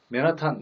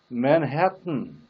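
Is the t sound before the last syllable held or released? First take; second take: released; held. First: The t sound is fully released with a puff. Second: The tongue stays up, the t sound held. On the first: The speaker calls it wrong. "맨하탄도 아니고" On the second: The speaker calls it right. "마지막 부분을 혀를 떼면 안 됩니다. 혀를 붙여둔 채"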